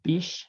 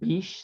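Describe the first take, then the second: No difference in how they are said.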